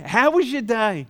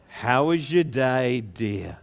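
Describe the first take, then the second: First: Said in the usual way. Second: Slow, low, drawn-out question; wife's greeting. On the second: Acted. Wife to shepherd home from work, slow drawn-out greeting. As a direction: stretch it out as a doting spouse. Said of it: "they go home to their wife".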